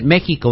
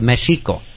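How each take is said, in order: First: The x is not said as sh. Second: The x is said as sh. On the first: This is how the name is said today. "that's why we pronounce it Mexico" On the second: This is the original way of saying the name. "instead of Mexico"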